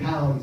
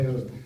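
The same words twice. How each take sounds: First: The vowel sounds like an English 'ow'. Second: The vowel is the rounded Dutch 'ui' sound. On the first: The speaker calls it wrong. "You don't say town" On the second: The speaker calls it right. "you say town"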